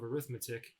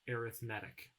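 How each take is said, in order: First: It is said with the noun pronunciation. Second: It is said with the adjective pronunciation. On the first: It names the branch of mathematics. "when we take the noun of arithmetic" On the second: It describes a type of sequence. "we use it as an adjective to describe a sequence, we pronounce it arithmetic"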